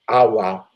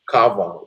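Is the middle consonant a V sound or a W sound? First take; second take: W sound; V sound. First: The middle consonant is a W sound. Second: The middle consonant is a V sound. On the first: The speaker calls it wrong. "so it's not Awa" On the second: The speaker calls it right. "Sounds with a V"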